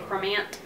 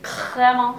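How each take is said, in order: First: It is said in a Texan accent. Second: It is said in an exaggerated French accent.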